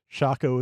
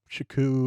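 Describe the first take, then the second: First: The name ends with an 'o' vowel. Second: The name ends with a 'u' vowel. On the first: This follows the Japanese katakana. "Shako is what the uh, katakana say" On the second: This follows the English spelling. "Shaku is fine"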